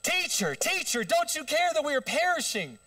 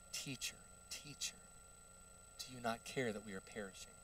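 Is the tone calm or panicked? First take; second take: panicked; calm. First: It is said in a panicked, frantic tone. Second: It is read in a calm, plain tone.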